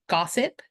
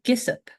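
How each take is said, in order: First: The first vowel is an open 'ah' sound. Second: The first vowel is a short 'ih' sound. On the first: The speaker calls it right. "G O S S I P, gossip" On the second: The speaker calls it wrong. "but I pronounced it Gissip"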